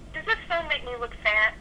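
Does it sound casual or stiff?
casual. It sounds natural and casual, like chatting.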